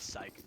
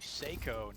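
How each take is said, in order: First: The name is said with one syllable. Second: The name is said with two syllables. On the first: The speaker calls it wrong. "not Psych" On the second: The speaker calls it right. "It is, I believe, Seiko"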